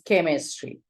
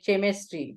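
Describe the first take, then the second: First: The word begins with a k sound. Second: The word begins with a ch sound. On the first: The speaker calls it right. "it is chemistry. It has become k" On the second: The speaker calls it wrong. "here you don't say chemistry"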